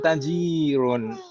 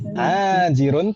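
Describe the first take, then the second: First: The first vowel is short, the second long. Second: The first vowel is long, the second short. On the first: The speaker calls it wrong. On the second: The speaker calls it right. "taknya yang panjang, bukan jimnya"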